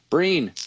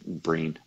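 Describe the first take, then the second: First: "Breen" pitched high and loud, then falling; exaggerated loud "Breen". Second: "Breen" said low and softly; understated, quiet "Breen". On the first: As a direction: sing out "Breen" playfully. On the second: Acted. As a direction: drop the pitch on "Breen". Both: Repeats nickname in contrasting ways.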